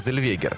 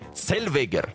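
First: The surname is pronounced the American way. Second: The surname is pronounced the German way. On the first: This is the commonly adopted form. "все как-то вот приняли вот эту американскую штуку произношения и говорят так" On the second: This follows the rules of the original language. "с учетом правил немецкого языка, произносится как Цельвегер"

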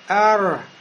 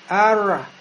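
No difference in how they are said.

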